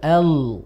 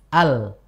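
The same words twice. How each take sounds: First: The l sound is thick and heavy. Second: The l sound is thin and light. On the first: "Mulai tebal" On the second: "kita baca mulai dari yang tipis"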